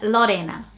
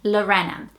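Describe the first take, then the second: First: It is said with a Brazilian Portuguese accent. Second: It is said with an English accent. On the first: "that's how Brazilians would say my middle name" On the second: "the way that people from English-speaking countries would say it"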